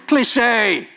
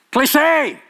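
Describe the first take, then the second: First: Dismissive verdict. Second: "Cliche" said higher and louder with a sharp fall; a scornful verdict thrown at the crowd; louder dismissive repeat. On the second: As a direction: slam the word down. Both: Real, not acted.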